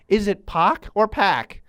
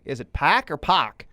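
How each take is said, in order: First: First Pac as "pock", second Pac as "pack"; two pronunciations contrasted. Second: First Pac as "pack", second Pac as "pock"; pronunciations in reverse order. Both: Shown as a demonstration. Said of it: "make sure I'm doing this correctly".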